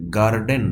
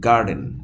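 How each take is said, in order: First: The r after the vowel is pronounced. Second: The r after the vowel is silent. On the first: The speaker calls it wrong. "গার্ডেন না" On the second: The speaker calls it right. "British উচ্চারণের ক্ষেত্রে আ"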